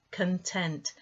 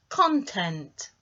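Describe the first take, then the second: First: Content with the stress on the second syllable, weak first, con-TENT; teacher contrasting the adjective with the noun, stress second syllable. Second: Content with the stress on the first syllable, CON-tent; teacher contrasting the noun and the adjective, stress first syllable. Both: Shown as a demonstration. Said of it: "Do you hear the difference in the way I emphasised the sounds".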